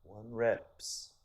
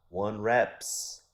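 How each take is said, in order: First: Lightly imitated Persian accent; a hint of the trainer's Persian accent. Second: Put-on heavy Persian accent, louder and higher. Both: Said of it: "heavy, heavy Persian accent".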